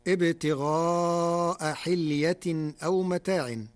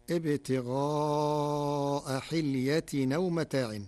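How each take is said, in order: First: حلية أو متاع with a full hamza on أو; loud slow recitation; standard reading. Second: حلية أو with the hamza dropped, hilyatinaw; slow Warsh recitation; Warsh reading. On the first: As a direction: recite أو with a clear glottal stop. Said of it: "قرأ ورش كلمتي". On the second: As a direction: carry the vowel of أو back onto the tanween. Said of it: "بنقل حركة الهمزة إلى الساكن قبلها وحذفها". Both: Shown as a demonstration.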